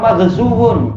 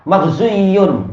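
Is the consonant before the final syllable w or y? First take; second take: w; y. First: The middle consonant is a w sound. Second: The middle consonant is a y sound. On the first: This form is easier to pronounce. The speaker calls it right. "bibir kita senang menampilkan wawu di situ" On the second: This form is harder to pronounce. The speaker calls it wrong. "malah kerja lebih keras"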